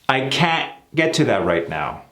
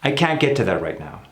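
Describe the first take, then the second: First: Can't ends with an obvious abrupt stop. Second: Can't ends with a less obvious, smoother stop. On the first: "You hear it?" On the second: "without making that abrupt stop so obvious"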